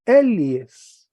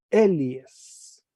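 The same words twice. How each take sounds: First: "Elies" loud and falling, demonstrated; teacher answers how it is read; model reading. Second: Said in the usual way. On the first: Shown as a demonstration. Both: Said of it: "¿Cómo se lee?".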